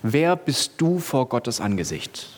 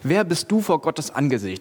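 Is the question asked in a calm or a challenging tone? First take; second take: calm; challenging. First: The question is asked in a calm, plain tone. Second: The question is asked in a challenging, confronting tone.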